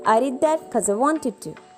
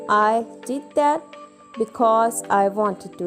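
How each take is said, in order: First: The words are contracted and run together. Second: Every word is said fully and separately. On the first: "you say" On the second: "Instead of saying"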